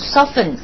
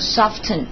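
First: The t sound is silent. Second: The t sound is pronounced. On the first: The speaker calls it right. "我们习惯读成soften" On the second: The speaker calls it wrong. "而不读成soften"

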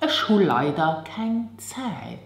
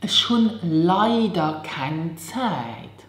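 First: It is said quickly and fluently. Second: It is said slowly and carefully.

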